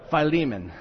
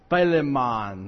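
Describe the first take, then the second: First: The name is pronounced in the standard way. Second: The name is pronounced in a garbled, mangled way. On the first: The speaker calls it right. "that makes so much more sense" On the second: The speaker calls it wrong. "I couldn't pronounce it at all"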